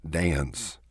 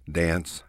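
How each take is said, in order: First: "dance" stretched long with a lilt; Texas drawl. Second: Said in the usual way. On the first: Shown as a demonstration. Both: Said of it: "stretch our vowels out and put a lilt".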